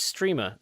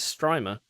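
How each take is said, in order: First: The stressed vowel sounds like 'ee'. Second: The stressed vowel sounds like 'eye'. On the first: This is how the company says the name. The speaker calls it wrong. "they said no, it's Streamer" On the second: This is how the spelling reads in English. The speaker calls it right. "that says Strymer"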